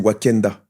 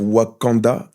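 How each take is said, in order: First: The second vowel sounds like an 'e'. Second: The second vowel sounds like an open 'a'. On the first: The speaker calls it wrong. "je disais Wakenda" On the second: The speaker calls it right. "au lieu de dire Wakanda"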